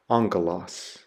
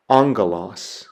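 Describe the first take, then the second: First: "angelos" repeated lower and softer, falling; Greek pronunciation, softer repeat. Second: "angelos" said AHNG-geh-los, rising; Greek pronunciation. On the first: Teacher repeating angelos for students, lower and quieter. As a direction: echo "angelos" quietly, settling the word. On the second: Teacher modelling angelos for students, clear and careful. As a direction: sound out "angelos" clearly, syllable by syllable. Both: Shown as a demonstration. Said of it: "it's pronounced".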